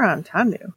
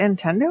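First: The first syllable sounds like 'on'. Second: The first syllable sounds like 'end'.

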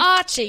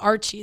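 First: It is said in a British accent. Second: It is said in an American accent.

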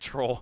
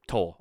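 First: It is said in a put-on Scottish accent. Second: It is said in the speaker's plain accent.

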